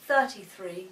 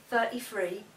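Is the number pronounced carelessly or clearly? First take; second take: clearly; carelessly. First: The number is pronounced clearly and carefully. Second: The number is pronounced carelessly and badly. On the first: The speaker calls it right. "instead of thirty-three" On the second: The speaker calls it wrong. "Other people speak very badly. For example, they'll say thirty-three"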